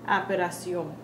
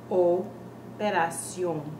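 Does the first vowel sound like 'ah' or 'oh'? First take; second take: ah; oh. First: The first vowel sounds like 'ah'. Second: The first vowel sounds like 'oh'. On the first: The speaker calls it wrong. "people end up saying operación" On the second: The speaker calls it right. "properly pronounced as operación"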